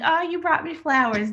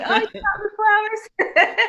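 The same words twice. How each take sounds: First: Higher, teasing thank-you; wife teasing her husband, playfully delighted; mock delighted. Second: Much higher, louder, laughing gush; wife teasing her husband, gushing with laughter; laughing mock delight. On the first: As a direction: pretend an apple bag is a bouquet. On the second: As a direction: gush over the apples through a laugh. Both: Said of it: "That's our ongoing joke".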